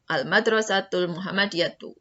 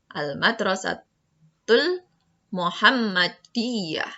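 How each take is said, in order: First: The last word ends in a short 'tu' sound. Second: The last word ends in a breathy 'ah' sound. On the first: The phrase continues without a stop. "berarti bacanya al-madrasatul Muhammadiyatu" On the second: The reader stops at this word. "kalau mau diwakafkan"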